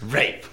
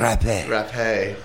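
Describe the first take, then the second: First: It is said as a plain English word. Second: It is said French-style, with a sounded final e.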